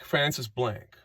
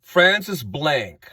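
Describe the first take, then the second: First: Francis Blank dropped softer and quicker; quiet aside repeating Francis Blank. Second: Lingering on the name Francis; slow, drawn-out name. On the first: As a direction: let the name fall away quietly. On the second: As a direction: say Francis Blank slowly, each word stretched. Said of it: "let's call him Francis Blank". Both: Shown as a demonstration.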